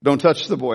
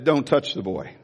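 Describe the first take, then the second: First: Lower, firmer repeat of the command; voice of God. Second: Lower, solemn command from heaven; voice of God. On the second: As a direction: say it low, as God stopping him. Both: Retold or imitated. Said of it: "he said".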